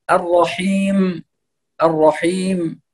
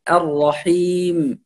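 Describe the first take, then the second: First: The wrong heavy mim in الرحيم. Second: The correct thin mim in الرحيم; light m. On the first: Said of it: "ويفخم الميم". (ميم مفخمة خطأ) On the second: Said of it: "الميم هنا مرقق". (ميم مرققة صحيحة) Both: Shown as a demonstration.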